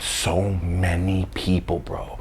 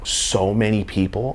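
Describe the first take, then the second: First: Slow, whispered So many people; So many people whispered slowly in wonder; whispered awe. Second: Said in the usual way. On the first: A narrator's reading. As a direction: hush it, stretch it slowly. Awed whisper vs plain repeat.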